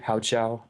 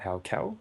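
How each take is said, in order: First: The second part starts with a 'ch' sound. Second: The second part starts with a 'k' sound. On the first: The speaker calls it right. "so that's apparently correct" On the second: The speaker calls it wrong. "not Hao Cow"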